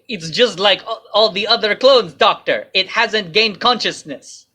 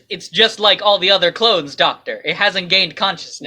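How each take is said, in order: First: It is said in a fake Russian accent. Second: It is said in a plain, normal voice.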